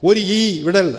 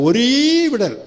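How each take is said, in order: First: A short vowel is followed by a separate ee. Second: One long drawn-out ee joins the word. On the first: The speaker calls it wrong. "வாசிக்க கூடாது" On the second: The speaker calls it right. "நெடில் போட்டு ... நல்லா நீட்டி முழக்கணும்"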